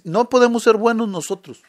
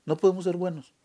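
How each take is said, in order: First: Louder, higher, leaning on ser; emphatic preaching. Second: Said in the usual way. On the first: Real, not acted. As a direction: predica con fuerza: no podemos SER buenos. Preacher stresses a key point. (predicación enfática, más fuerte y aguda)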